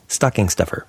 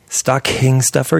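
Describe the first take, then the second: First: The K is said without a strong puff. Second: The K is said with a strong puff of air. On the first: The speaker calls it right. "you'd say stocking" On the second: The speaker calls it wrong. "you'd never say that"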